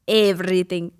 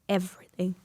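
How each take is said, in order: First: It is said in an imitated, put-on accent. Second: It is said in the speaker's normal accent. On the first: Someone else says it this way. "she's like, everything" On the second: This is how the speaker says it. "I say everything"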